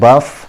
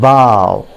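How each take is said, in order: First: The word rhymes with cough, ending in f. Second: The word ends in an ow vowel sound. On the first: The speaker calls it wrong. "जैसे वो कफ को बोलते हैं, उसी तरीके से बफ" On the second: The speaker calls it right. "It is pronounced as bow"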